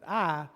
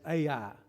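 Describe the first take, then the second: First: The name is said as one syllable. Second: The name is said as two syllables. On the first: This is how the audiobook narrator said it. "he pronounced it I" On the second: This is how most of the group learned to say it. "I'll be referring to it as A I"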